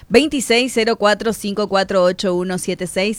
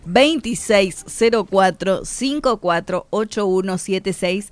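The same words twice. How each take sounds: First: The number is said very fast. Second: The number is said slowly.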